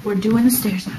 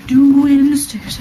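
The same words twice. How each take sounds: First: Said in the usual way. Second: Louder, drawn-out announcement. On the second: Real, not acted. Showing viewers around the house, loudly announcing the stairs. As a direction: announce it like a big event, stretching it out.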